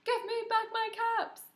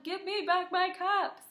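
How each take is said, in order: First: Much higher put-on peddler voice; higher still, demanding; peddler's demand, higher. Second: High, put-on peddler voice; kid-story character voice; peddler's demand. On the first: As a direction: lead the class in the peddler's line. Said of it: "Can you do that with me? Ready, go". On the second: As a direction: voice the peddler demanding his caps. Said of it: "He's trying to tell them". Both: Shown as a demonstration.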